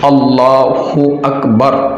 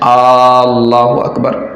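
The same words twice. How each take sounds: First: The opening vowel of Allah is short. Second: The opening vowel of Allah is drawn out. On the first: The speaker calls it right. "ये सही लफ्ज़ है, सही तलफ़ुज़ है" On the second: The speaker calls it wrong. "अल्लाह के इस हमज़ा को खींच लिया"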